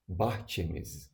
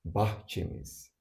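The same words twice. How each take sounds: First: Said in the usual way. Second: Bahçemiz said slowly, syllable by syllable; slow it down so learners can copy Bahçemiz; slow model repeat. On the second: Shown as a demonstration. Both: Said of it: "Another example".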